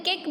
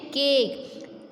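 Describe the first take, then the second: First: केक with a quick, short vowel; wrong short vowel. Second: केक with the "ay" held long; केक, long drawn-out A; long vowel. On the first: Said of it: "तो क्या आप कैसे बोलते हैं?". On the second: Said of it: "तो ए का sound थोड़ा लंबा होता है". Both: Shown as a demonstration.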